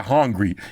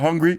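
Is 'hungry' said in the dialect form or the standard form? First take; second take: dialect; standard. First: The word is said in a dialect pronunciation. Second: The word is said in the standard pronunciation. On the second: "instead of hungry"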